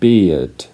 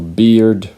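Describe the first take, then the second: First: It is said in a British accent. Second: It is said in an American accent. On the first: "for British English" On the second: "for American English"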